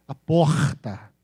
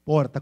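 First: Slow porta with a long guttural carioca R; carioca accent. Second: Said in the usual way. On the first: Shown as a demonstration. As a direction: drag the R in porta like a Rio native. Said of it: "O carioca fala um R bem puxado". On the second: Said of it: "como é que eles falam porta?".

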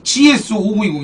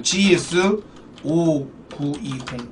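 First: Said in the usual way. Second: 오구이공 stretched out very slowly and softer; 지에스 오구이공 drawn out low and slow; slow hyped call. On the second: Shown as a demonstration. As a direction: drag out 오구이공 like a big reveal. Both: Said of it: "메이저 좀 줄게요".

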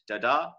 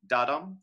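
First: "da-da" with stress on the second syllable; weak first da, strong second da in "da-da"; iamb stress. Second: "da-dum" with stress on the first syllable; strong da, then fall away on dum in "da-dum"; trochee stress. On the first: Teacher contrasting two-syllable feet, "da-da" stressed on the second. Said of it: "an unstressed followed by a stress". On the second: Teacher contrasting two-syllable feet, "da-dum" stressed on the first. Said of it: "You start with the accent and you go off". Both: Shown as a demonstration.

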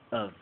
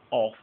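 First: "of" shrunk to a quick schwa, lower; reduced weak form. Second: "of" with a full open vowel, the wrong way; full strong form. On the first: Teacher showing the right weak form of of. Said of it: "but of". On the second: Teacher showing the wrong full form of of. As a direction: say "of" fully and clearly. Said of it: "Y no diríamos of". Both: Shown as a demonstration.

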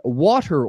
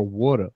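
First: WATER said one regional way; first pronunciation. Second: WATER said the other regional way; second pronunciation. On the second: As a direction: say WATER in the contrasting dialect pronunciation. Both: Shown as a demonstration. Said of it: "how words are pronounced".

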